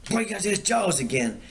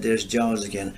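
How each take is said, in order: First: High, excited teasing shout of a warning; mock warning call. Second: Said in the usual way. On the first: Teasing his fishing buddy in the dark boat, high mock alarm. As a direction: sell the fake alarm with a much higher voice.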